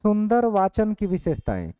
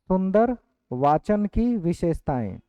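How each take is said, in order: First: Said in the usual way. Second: Slow, with सुंदर stressed, for students to write; slow dictation. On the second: Shown as a demonstration. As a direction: dictate it slowly word by word. (धीरे-धीरे लिखवाते हुए बोलना) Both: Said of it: "लिखेंगे".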